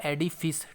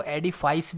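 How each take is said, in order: First: एडिफिस said with a short final "fis", like edi-fis; एडिफिस, ending in a clipped "fis"; correct pronunciation. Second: एडिफाइस said with a long "fais" ending, like edi-fice; common mispronunciation. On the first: Teacher showing students the correct way: एडिफिस with a short "fis". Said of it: "इसका जो correct pronunciation है". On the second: Teacher quoting the wrong form students use: एडिफाइस ending "fais". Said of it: "कुछ लोग इसको एडिफाइस भी बोलते हैं". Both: Shown as a demonstration.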